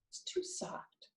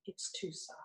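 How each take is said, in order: First: Breathy whispered demo. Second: Whispered even softer. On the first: Teacher demonstrating a soft voice, whispered. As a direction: whisper it to show softness. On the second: Teacher showing a whisper is not a bellow, whispered. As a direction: hush it right down. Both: Shown as a demonstration. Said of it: "A whispering voice would not be a bellow".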